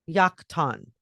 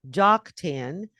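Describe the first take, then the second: First: The name starts with a Y sound. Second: The name starts with a J sound. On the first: The speaker calls it right. "it's actually pronounced Yaktan" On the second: The speaker calls it wrong. "what looks like Joktan"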